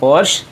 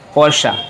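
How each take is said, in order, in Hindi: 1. इस शब्द का अंत सादे 'sh' ध्वनि से होता है। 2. इस शब्द का अंत 'ah' स्वर से होता है। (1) "नॉर्मली पढ़ते हैं पोर्श" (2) "सही प्रोनाउंसिएशन है पोर्शा"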